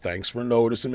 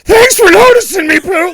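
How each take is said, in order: First: It is said in a gloomy Eeyore voice. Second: It is said in a strange, high-pitched voice.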